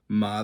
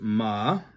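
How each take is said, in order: First: The syllable is said with a blank, neutral tone. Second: The syllable is said with the third tone. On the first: It marks a yes-or-no question. "this is a fifth tone. This is just the blank tone" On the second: It means horse. "This is a third tone"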